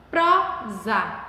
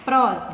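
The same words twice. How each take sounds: First: "prosa" broken slowly into two separate syllables, pro, za; split into syllables. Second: Said in the usual way. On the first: Shown as a demonstration. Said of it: "Paramos no pró". ("prosa" separado em sílabas: pro-za) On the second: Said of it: "a sílaba tônica da última palavra".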